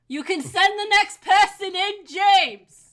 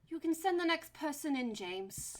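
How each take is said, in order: First: The line is said very loudly, almost shouted. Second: The line is said at a quiet, ordinary volume.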